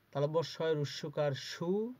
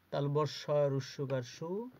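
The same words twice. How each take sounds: The two takes are said the same way.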